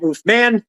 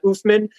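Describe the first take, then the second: First: The vowel in 'man' is a full 'a'. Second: The vowel in 'man' is reduced and weak. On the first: The speaker calls it right. "That is an A" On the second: The speaker calls it wrong. "I'm not oofman"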